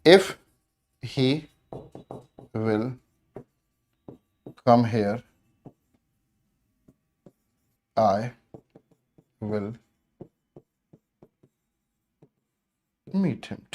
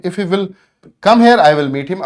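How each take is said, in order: First: Slow, word by word dictation. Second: Said in the usual way. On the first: Shown as a demonstration. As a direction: spell out each word with long gaps. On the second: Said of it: "ठीक है".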